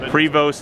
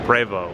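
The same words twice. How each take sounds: First: The name is pronounced the American way. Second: The name is pronounced the French way. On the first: This is the usual pronunciation in the US. The speaker calls it wrong. "Prevost in the U S" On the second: This is the original pronunciation of the name. The speaker calls it right. "I want to call it what it's called, Prevost, because it's French"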